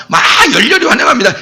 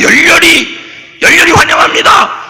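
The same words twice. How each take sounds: First: Said in the usual way. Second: Fervent welcome. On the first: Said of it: "이거보다 더 흔들어야 돼". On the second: Shown as a demonstration. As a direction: cheer it like greeting a president.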